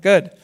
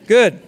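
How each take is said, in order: First: Said in the usual way. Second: Good said much louder, falling firmly; emphatic good. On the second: Real, not acted. Teacher rewarding a nod with an emphatic Good. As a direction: land the Good loud and final.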